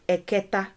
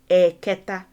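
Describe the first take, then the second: First: The word is said plainly, without extra emphasis. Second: The word is said with clear extra emphasis. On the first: The speaker calls it wrong. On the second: The speaker calls it right.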